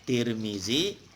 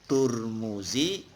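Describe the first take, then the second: First: The name is said with i vowels. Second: The name is said with u vowels. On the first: "Kalau dibaca tir zi" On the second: "kalau dibaca tur mu"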